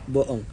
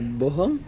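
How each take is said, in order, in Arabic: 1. الـ h بتتبدل بوقفة حنجرية. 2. فيه صوت h واضح في النص. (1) "كأن حرف الها اتحذف" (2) "بدل ما نقول"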